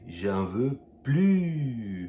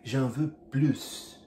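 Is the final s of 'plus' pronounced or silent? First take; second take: silent; pronounced. First: The final s of plus is silent. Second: The final s of plus is pronounced. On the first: The speaker does not want any more food. The speaker calls it right. "negativa sem o S" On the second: The speaker wants more food. The speaker calls it wrong. "acaba colocando S"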